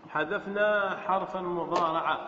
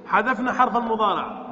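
First: Slower, lower, measured restatement; slow repetition. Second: Said in the usual way. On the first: Shown as a demonstration. Teacher repeats the grammar step for students, slowly and lower.

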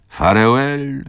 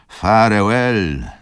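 First: "Farewell" called higher and louder, rising; calling farewell. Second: "farewell" drawn out slowly, loud and falling; slow final farewell. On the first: Wokulski calls "Farewell" to Izabela at the window, loud. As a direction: fling "Farewell" out to the departing train. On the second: Wokulski's last slow loud "farewell" to Izabela as the train leaves. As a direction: let "farewell" sink slowly and loudly. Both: A narrator's reading. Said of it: "zawołał Wokulski".

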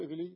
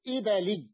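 First: إبلي said with i after the b, "ibili"; wrong vowel. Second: إبلي said firmly with a after the b, "ibali"; middle fatha. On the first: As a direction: keep a kasra on the b of إبلي. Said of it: "لا تقول إبلي". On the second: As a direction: stress an open a on the b of إبلي. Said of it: "بفتح". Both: Shown as a demonstration.

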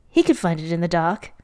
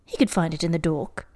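First: Said in the usual way. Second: "dork" said with an "or" vowel; slip of the tongue. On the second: Real, not acted. Reader stumbling over the story's line, slip into "dork". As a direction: round the vowel in "dork" to rhyme with fork.

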